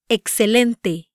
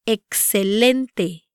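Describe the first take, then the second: First: "Excelente" with stress on LEN; "Excelente" emphasising the next-to-last syllable; penultimate stress. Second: "Excelente" slowly, leaning on LEN; "Excelente" syllable by syllable, ek-se-LEN-te; slow penultimate stress. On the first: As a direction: say "Excelente" evenly paced, ek-se-LEN-te. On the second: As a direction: draw out "Excelente", stressing the next-to-last syllable. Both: Shown as a demonstration. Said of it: "the penultimate syllable".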